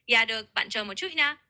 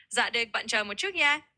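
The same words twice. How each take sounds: First: "Dạ" now said as "yah", the Southern way; Southern pronunciation. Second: "Dạ" pronounced "za", the Northern way; Northern pronunciation. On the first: Tutor as cashier after being corrected, Southern pronunciation. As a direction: start "Dạ được" with a y sound. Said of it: "Perfect little tweak for the Southern vibe". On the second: Tutor repeats the cashier's response, Northern pronunciation. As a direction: start "Dạ được" with a z sound. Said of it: "that's the Northern dialect". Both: Shown as a demonstration.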